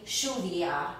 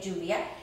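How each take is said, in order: First: The double L sounds like an English SH. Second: The double L sounds like an English J. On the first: "In Argentina, ... like an S H" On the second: "like I say lluvia"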